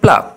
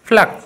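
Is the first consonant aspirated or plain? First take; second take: plain; aspirated. First: The first p is plain, without a puff. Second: The first p has a strong puff of air. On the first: The speaker calls it wrong. "প্লাক না বলে" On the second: The speaker calls it right. "একটু পটাকে একটু ফটাই উচ্চারণ করবো"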